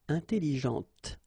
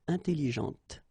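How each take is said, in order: No difference in how they are said.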